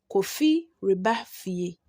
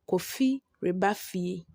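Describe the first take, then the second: First: The re syllable is said before ba. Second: The same.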